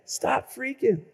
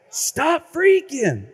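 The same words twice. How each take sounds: First: Softer, dropped echo; soft slogan. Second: High, slow and stretched; high slogan. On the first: Preacher echoing the jingle line to himself, softer. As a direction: let it fall quietly. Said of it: "slogan repeated softly". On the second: Preacher repeating the jingle line to the crowd, high and drawn. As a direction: sing the slogan out. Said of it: "slogan repeated for effect". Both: Shown as a demonstration.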